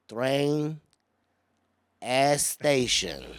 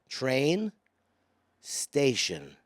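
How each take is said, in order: First: It has a Spanish accent and an added vowel. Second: It is said plainly, with no extra vowel. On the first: A learner with a Spanish accent said it. The speaker calls it wrong. "He goes" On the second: This is the form the speaker was teaching. The speaker calls it right. "I was like"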